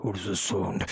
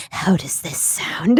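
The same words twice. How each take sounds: First: A lightly lower announcer voice; low voice over the intercom; different intercom voice. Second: Low, slow announcer voice; deep, slow voice over a speaker; intercom voice. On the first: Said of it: "I turned on a different one". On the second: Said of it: "he turns on the intercom voice". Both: Retold or imitated.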